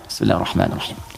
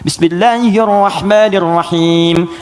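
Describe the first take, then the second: First: It is recited quietly, almost silently. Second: It is recited aloud, clearly voiced.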